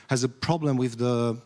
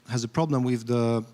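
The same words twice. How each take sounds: The two takes are said the same way.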